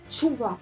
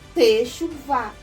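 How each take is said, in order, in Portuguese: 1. Depois do primeiro t, não se ouve nenhuma vogal. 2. Depois do primeiro t, vem um e curto. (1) "com um som mudo" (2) "o T com E"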